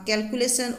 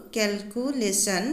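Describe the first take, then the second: First: Said in the usual way. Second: calculation slowly in four separate beats; measured syllable count on calculation. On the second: Shown as a demonstration. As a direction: split calculation into cal, cu, lay, shun. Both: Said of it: "ইয়াত চাৰিটা syllable হ'ব".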